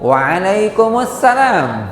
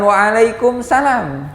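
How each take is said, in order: First: The 'as-salam' part is said in full. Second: The 'as-salam' part is shortened. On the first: It wishes God's peace upon you. The speaker calls it right. "Itu assalam itu nama Allah" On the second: It wishes only worldly safety. The speaker calls it wrong.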